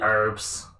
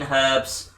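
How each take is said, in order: First: The word starts without an h sound. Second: The word starts with an h sound. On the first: "they call it herbs" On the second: "We pronounce the H in herbs"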